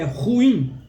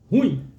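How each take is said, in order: First: The stress is on the second syllable. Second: The stress is on the first syllable. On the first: The speaker calls it right. "o correto é ruim" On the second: The speaker calls it wrong. "as pessoas elas têm o hábito de falarem ruim"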